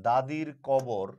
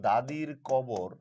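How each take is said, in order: Both takes have the same delivery.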